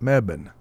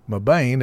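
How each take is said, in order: First: The first syllable rhymes with 'web'. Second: The first syllable does not rhyme with 'web'. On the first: The speaker calls it right. "it's Mebane. Meb, like Webb" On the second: The speaker calls it wrong. "Instead of Mabane"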